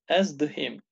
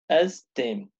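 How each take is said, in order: First: The verb is said in full, syllable by syllable. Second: The verb is contracted, with a hardened consonant.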